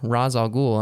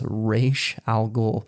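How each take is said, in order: First: The name is said with the movie's pronunciation. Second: The name is said with the comics-fan pronunciation. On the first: This is how people who do not know the comics say it. The speaker calls it wrong. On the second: This is how people who know the comics say it. The speaker calls it right. "no, it is Ra's al Ghul"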